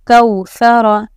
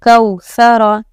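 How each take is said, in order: No difference in how they are said.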